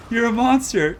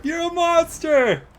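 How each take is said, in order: First: You're a monster! shouted high and loud; excited shout. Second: You're a monster! stretched slow and much higher; drawn-out yell. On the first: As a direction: call out "monster" in real disbelief. Caster hypes a brutal play. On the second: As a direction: drag out "monster" in a slow, giddy howl. Caster repeats, drawn out. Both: Real, not acted.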